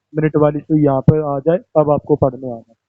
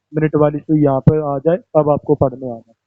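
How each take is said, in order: No difference in how they are said.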